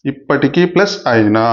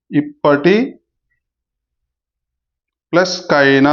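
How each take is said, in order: First: Teacher showing the right word split; correct split. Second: Teacher demonstrating the wrong word split. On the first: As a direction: split as "ఇప్పటికీ" plus "అయినా", the right way. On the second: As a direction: split as "ఇప్పటి" plus "కైనా", the wrong way. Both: Shown as a demonstration. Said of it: "ఇలా విడదీయకూడదు".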